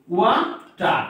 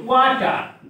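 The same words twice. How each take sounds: First: "water" as two beats, "ওয়া", pause, "টার"; separated syllables in "water"; split in syllables. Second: Said in the usual way. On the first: Shown as a demonstration. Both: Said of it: "আমরা কয়ভাবে উচ্চারণ করতেছি".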